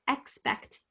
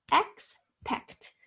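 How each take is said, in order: First: Said in the usual way. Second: Expect broken into ex, pause, pect; split into syllables. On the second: Shown as a demonstration. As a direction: sound out expect in two separate syllables. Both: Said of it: "Say the word to yourself in syllables".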